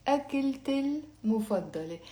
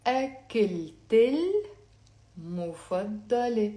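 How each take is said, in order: First: Said in the usual way. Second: Slow, linked أكلت المفضلة, syllables held apart; slow teaching model of أكلت المفضلة; slowly. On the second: Shown as a demonstration. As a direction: stretch "ak-kil-tel", then "mufaddale" in أكلت المفضلة. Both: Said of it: "Let's say it slowly".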